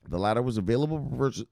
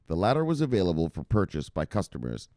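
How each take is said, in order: First: It is said fast. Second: It is said more slowly.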